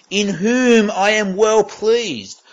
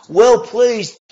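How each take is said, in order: First: Said in the usual way. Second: Booming voice. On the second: Shown as a demonstration. Preacher echoing God's words in a booming voice. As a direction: repeat it higher and louder, booming. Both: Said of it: "A booming voice identifying Jesus".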